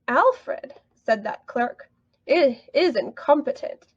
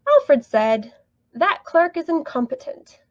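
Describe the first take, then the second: First: Phrased so that the clerk is the one speaking. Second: Phrased so that Alfred is the one speaking.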